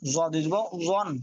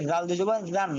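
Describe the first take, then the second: First: "জন" slow and heavy, with rounded vowel; flattened-tongue zo. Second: "গান" begun with a soft, light consonant; soft zal. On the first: Teacher contrasting two letters, heavy slow "জন". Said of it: "জ বলার সময় জিহ্বাটা চ্যাপ্টা". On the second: Teacher contrasting two letters, soft "গান". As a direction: say "গান" gently, tongue light on the first sound. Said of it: "নরম". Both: Shown as a demonstration.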